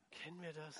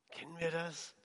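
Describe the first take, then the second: First: Very soft, almost to yourself; hushed searching question. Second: Quietly asked of the congregation; soft searching question. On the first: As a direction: repeat it barely audibly. Same question repeated, almost inaudible. (ganz leise, fast gehauchte Frage) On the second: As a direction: ask it softly, confidingly. Confiding question to congregation, repeated. (leise, nachdenkliche Frage) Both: Real, not acted.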